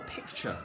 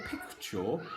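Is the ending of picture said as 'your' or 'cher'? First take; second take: cher; your. First: The ending sounds like 'cher', said naturally. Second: The ending sounds like 'your', carefully sounded out. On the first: "I'll say it in my way of saying it with our regional accents" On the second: "we know that your would be if we're saying it in that very posh manner"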